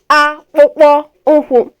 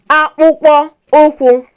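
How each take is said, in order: Both takes have the same delivery.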